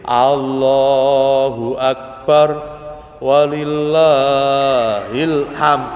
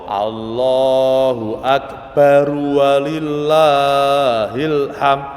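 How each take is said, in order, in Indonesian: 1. Frasa itu ada jeda di tengahnya. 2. Frasa itu terus diucapkan tanpa berhenti. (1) "Kalau berhenti"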